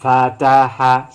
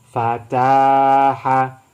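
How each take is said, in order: First: All syllables are short. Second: The second syllable is long. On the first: "dibaca pendek semua, bukan dibaca panjang" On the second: "mana yang dibaca panjang? Ta"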